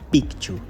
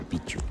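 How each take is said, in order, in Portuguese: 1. Há um som de k antes do ch. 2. Não há som de k antes do ch. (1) "Picchu é o nome correto" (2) "como dizemos aqui no Brasil"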